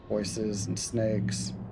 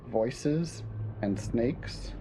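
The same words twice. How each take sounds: First: The audio sounds clear and unprocessed. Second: The audio sounds muffled and dull. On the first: "Now I'm back to normal" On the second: "The second one was kind of muffled"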